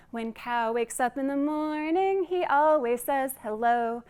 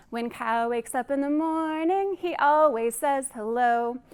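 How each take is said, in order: Both takes have the same delivery.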